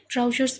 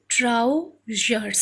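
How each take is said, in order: First: Said in the usual way. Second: "trousers" slowly broken as trou, pause, zers; split into syllables. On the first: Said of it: "trou, one syllable". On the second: Shown as a demonstration. Teacher introducing the next word, "trousers" split by syllable. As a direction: say "trousers" slowly in two separate beats. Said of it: "then another syllable".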